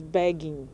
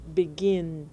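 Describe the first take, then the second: First: "begging" with the stress on the first syllable, BEG; wrong stress, BEGGING. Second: "begin" with the stress on the last syllable, GIN; stress on second syllable. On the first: Teacher showing learners how not to say the verb, wrongly stressed "begging" on BEG. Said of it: "Você não diz begging". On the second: Teacher showing learners the verb as it is said, "begin" stressed on GIN. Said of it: "você diz begin". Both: Shown as a demonstration.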